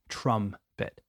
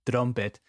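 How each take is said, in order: First: The first vowel is an 'um' sound. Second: The first vowel sounds like Spanish 'trompeta'. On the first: The speaker calls it right. "practice that um sound" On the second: The speaker calls it wrong. "I know it's tempting to say trumpet because in Spanish we say trompeta"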